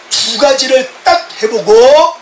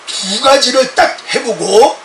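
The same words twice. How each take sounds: The two takes are said the same way.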